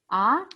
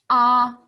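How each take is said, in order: First: The pitch rises from mid to high. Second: The pitch stays high and level. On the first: "Second tone, 二声, surprise sound or question sound" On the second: "一声, first tone, 一声. That's an open mouth sound"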